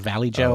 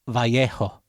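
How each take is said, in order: First: The j is an English j sound. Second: The j is an h sound. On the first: "why not Valley Joe?" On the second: "the J in the other language"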